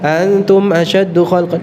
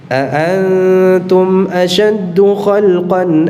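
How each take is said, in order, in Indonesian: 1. Dimulai dengan satu hamzah. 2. Dimulai dengan dua hamzah yang jelas terpisah. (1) "jangan dibaca" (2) "dibaca dua-duanya dengan jelas"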